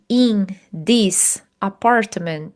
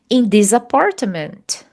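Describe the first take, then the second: First: The words this and apartment are kept apart. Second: The words this and apartment run together. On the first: The speaker calls it wrong. "do que se eu falasse in this apartment?" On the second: The speaker calls it right. "Então é só você juntar this com apartment"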